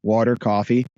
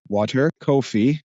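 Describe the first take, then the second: First: "coffee" said the New Jersey way, with an open "caw" vowel; broad Jersey "Water, coffee", leaning into the accent; New Jersey "cawfee" in "Water, coffee". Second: "coffee" said slowly with a rounded "oh" vowel, as in "koh-fee"; slow, careful West Coast "Water, coffee"; an LA-style "coffee" in place of the Jersey one; neutral LA accent. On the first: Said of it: "You can hear my Jersey accent". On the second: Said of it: "I have to say". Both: Shown as a demonstration.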